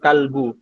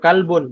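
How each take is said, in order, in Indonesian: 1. Kata itu berakhir dengan vokal, tidak ada n. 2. Kata itu berakhir dengan bunyi n. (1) "bukan kalbu" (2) "kalbun ya kalbun"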